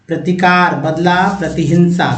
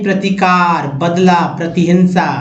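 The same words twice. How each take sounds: Both takes have the same delivery.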